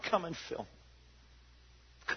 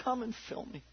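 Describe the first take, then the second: First: Breathy slow prayer whisper. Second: Soft prayer. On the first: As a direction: pray it under your breath. Voiced prayer inside sermon. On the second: Repeated prayer, quiet. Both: Acted.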